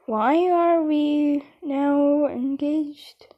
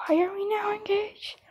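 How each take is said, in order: First: Drawn-out, slow confused question; panicked slow plea; slow and bewildered. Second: Urgent hushed whisper; whispered aside so the others won't hear; panicked whisper. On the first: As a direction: stretch every word out in disbelief. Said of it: "Because I'm panicking". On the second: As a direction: hiss it under your breath in a panic. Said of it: "Because I'm panicking now". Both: Real, not acted.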